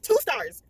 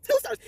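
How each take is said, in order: First: Said in the usual way. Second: "Two stars." again, jumping far higher; squeaky repeat. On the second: Real, not acted. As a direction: repeat the rating in a mock-shocked squeak.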